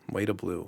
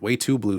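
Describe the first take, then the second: First: The middle word is said as a weak 'to'. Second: The middle word is said as a full 'too'. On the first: The speaker calls it wrong. "It just sounds weird" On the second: The speaker calls it right. "sounds so, so much more, you know, natural"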